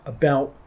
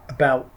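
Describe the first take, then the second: No difference in how they are said.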